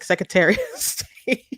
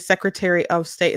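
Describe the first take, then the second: First: It is said with a Michigan regional pronunciation. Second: It is said with a standard pronunciation. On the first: "it's like Secretary of State" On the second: "we don't say Secretary of State"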